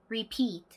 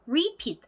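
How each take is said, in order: First: The stress is on the second syllable. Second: The stress is on the first syllable. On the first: The speaker calls it right. "뒤에 강세" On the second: The speaker calls it wrong. "repeat 아니고요"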